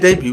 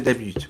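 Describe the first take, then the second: First: The final T is pronounced clearly and hard. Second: The final T is pronounced softly. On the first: This is how the listener's group says it. "you say debut" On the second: This is how the speaker's group says it. "We say debut with a uh, soft T at the end"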